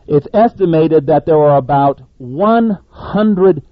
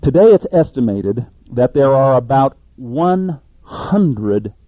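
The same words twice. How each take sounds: First: About stressed, louder and slow. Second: Said in the usual way. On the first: Shown as a demonstration. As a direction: lean hard on the word about, slowly. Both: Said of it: "I emphasize the word about".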